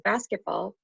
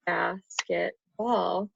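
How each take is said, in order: First: Said in the usual way. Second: Basketball said slowly, syllable by syllable; counting syllables. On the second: Shown as a demonstration. Teacher counting syllables of basketball for her student. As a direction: stretch out basketball to count its beats. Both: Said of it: "that's three syllables".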